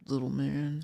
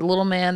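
First: It is said in a deeper voice. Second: It is said in a normal voice.

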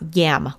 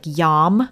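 First: The vowel is front, like in 'cat'. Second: The vowel is open, like in 'saw'. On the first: The speaker calls it wrong. "not yam, like the vegetable" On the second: The speaker calls it right. "which is pronounced like yaw, like yam"

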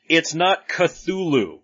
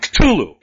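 First: The name is said in a plain, ordinary way. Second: The name is spat out with the tongue raised. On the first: The speaker calls it wrong. "it's not Cthulhu" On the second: The speaker calls it right. "pronounced with the tongue at the top of your mouth and like you're spitting the name out"

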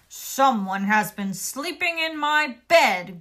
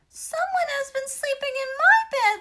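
First: It is said in a deep, growling voice. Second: It is said in a high, squeaky voice.

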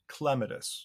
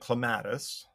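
First: The stress is on the first syllable. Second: The stress is on the second syllable. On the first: The speaker calls it right. "the correct botanical pronunciation is clematis, so the accent is on the first syllable" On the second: The speaker calls it wrong. "growing up, I called it clematis"

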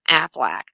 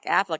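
First: It is said nasally, like a quacking duck. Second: It is said in a normal voice.

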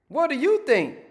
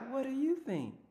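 First: It is said bluntly and harshly. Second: It is said softly and gently.

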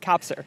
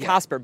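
First: The p sound comes before the s sound. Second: The s sound comes before the p sound. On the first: The speaker calls it right. "But right" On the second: The speaker calls it wrong. "You want to say Cosper because that's the Way your mouth wants to"

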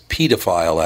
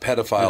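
First: The first syllable is said like 'pee'. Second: The first syllable is said like 'ped'. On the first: The speaker calls it right. "as in pediatrician" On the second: The speaker calls it wrong. "It's not pedophile, it like is. In pedestrian"

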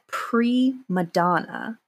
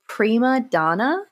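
First: It is said run together as one word. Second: It is said as two separate words. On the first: The speaker calls it wrong. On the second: The speaker calls it right.

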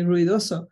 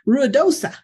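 First: The name is pronounced with a Spanish accent. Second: The name is pronounced with an English accent. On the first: The speaker calls it right. "I speak with a Spanish accent" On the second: The speaker calls it wrong. "Some people say"

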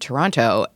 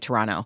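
First: It is said with an American pronunciation. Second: It is said with a local Canadian pronunciation.

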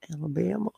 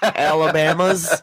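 First: The word ends without an s sound. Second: The word ends with an added s sound. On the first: The speaker calls it right. "It doesn't end in an S" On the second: The speaker calls it wrong. "a lot of words that people add an S to"

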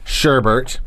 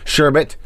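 First: The second syllable has an r sound. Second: The second syllable has no r sound.

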